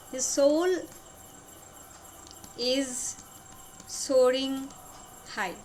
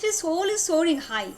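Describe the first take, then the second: First: Long pause before each of the last words; word-by-word dictation. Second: Said in the usual way. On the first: Shown as a demonstration. Teacher repeating the lover's feeling for students, word-by-word dictation. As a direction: space the words far apart.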